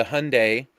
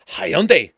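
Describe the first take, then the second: First: Hyundai said "HUN-day"; Hyundai in two syllables, rhyming with Sunday. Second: Hyundai said "hi-YUN-day"; Hyundai slow and punched, as hi-YUN-day; alternative pronunciation. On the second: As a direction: stretch Hyundai into three syllables, hi-YUN-day. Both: Shown as a demonstration. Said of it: "I don't know if that's how you say it".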